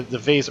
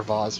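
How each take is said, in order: First: "vase" said with a long AY, like "vayz". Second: "vase" said with a broad AH, like "vahz". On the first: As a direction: say "vase" to rhyme with "haze". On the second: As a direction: say "vase" with the vowel of "spa". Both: Shown as a demonstration. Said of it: "depending on pronunciation".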